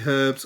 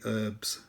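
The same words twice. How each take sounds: First: It is said in a British accent. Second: It is said in an American accent.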